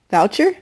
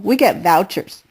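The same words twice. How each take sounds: First: "Voucher?" said as "Boucher", v turned to b. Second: Said in the usual way. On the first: Retold or imitated. Narrator repeats the new word: "Voucher" sounding like "Boucher". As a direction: say "Voucher?" with a b at the start, unsure rise. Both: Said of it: "It came out sounding like Boucher".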